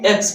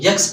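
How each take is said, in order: First: It begins directly with a vowel sound. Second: It begins with a y sound before the vowel. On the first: The speaker calls it right. "तो एक्स पढ़ेंगे" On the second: The speaker calls it wrong. "इस तरीके से नहीं पढ़ना इसे"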